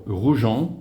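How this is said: The name is said with a French accent.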